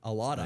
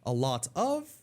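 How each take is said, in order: First: The word of shrinks into a weak vowel. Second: The word of is pronounced fully. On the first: "what would we say?" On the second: "instead of saying a lot of"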